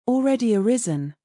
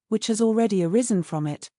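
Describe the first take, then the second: First: Already arisen lifted higher as a query; questioning echo. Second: Said in the usual way. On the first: A narrator's reading. Father repeating daughter's words with a questioning lift. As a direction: echo his daughter's words back, a touch incredulous. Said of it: "repeated Mister Bennet".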